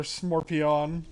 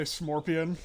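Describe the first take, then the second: First: "Smorpion" as smor-pee-ON; slower "Smorpion" with a full "ahn" ending; exaggerated mispronunciation. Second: "Smorpion" with a reduced "-pee-un" ending; "Smorpion", ending weakly on "un"; casual mispronunciation. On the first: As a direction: say "Smorpion" with the last syllable opened to "on". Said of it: "or Smorpion". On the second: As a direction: say "Smorpion" with sm for sc, unstressed last syllable. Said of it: "you'll occasionally hear me say Smorpion". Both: Shown as a demonstration.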